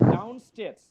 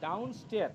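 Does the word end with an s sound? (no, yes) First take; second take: yes; no. First: The word ends with a clear s sound. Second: The word ends without a final s sound. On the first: The speaker calls it right. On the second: The speaker calls it wrong.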